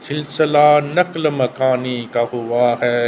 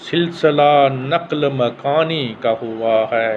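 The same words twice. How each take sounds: The two takes are said the same way.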